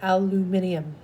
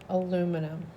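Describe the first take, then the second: First: It is said with five syllables, alu-mi-ni-um. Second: It is said with four syllables, alu-mi-num.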